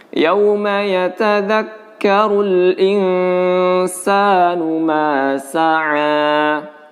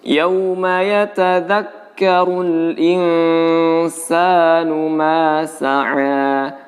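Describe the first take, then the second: No difference in how they are said.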